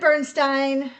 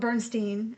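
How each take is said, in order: First: The last syllable sounds like 'stine'. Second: The last syllable sounds like 'steen'.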